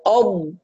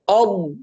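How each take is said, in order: First: The consonant is made with the tongue sides. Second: The consonant is made with the tongue sides.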